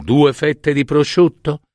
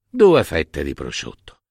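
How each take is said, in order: First: Higher-pitched questioning lift on "due fette di prosciutto"; tentative suggestion. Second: Low, falling "Due fette di prosciutto"; agreeing echo. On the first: Wife tentatively proposes, husband confirms. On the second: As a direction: confirm "Due fette di prosciutto" as a settled statement. Husband echoes the suggestion in agreement. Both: Acted.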